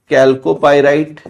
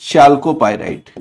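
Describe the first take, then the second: First: The word begins with a k sound. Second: The word begins with a ch sound. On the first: "दो अलग अलग तरीके से इसका pronunciation है" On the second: "दो अलग अलग तरीके से इसका प्रोनाउंसिएशन है"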